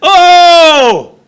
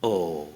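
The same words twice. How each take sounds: First: It sounds deeply moved and heartfelt. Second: It sounds only mildly surprised.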